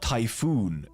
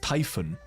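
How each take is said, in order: First: The second syllable has a long 'oo' vowel. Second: The second syllable has a short 'o' vowel. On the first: The speaker calls it wrong. "It's not Typhoon" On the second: The speaker calls it right. "it's Typhon"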